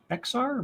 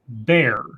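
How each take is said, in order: First: The name is said with an x sound. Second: The name is said like the word bear. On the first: The speaker calls it wrong. "I'm betting I'm mispronouncing that" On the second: The speaker calls it right. "Raymond says Bexar is pronounced bear"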